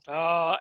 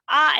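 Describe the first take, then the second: First: The pitch dips low. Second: The pitch stays high and level. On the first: "and then the low tone" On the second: "there's the high tone, which is the first one, that's ah up here"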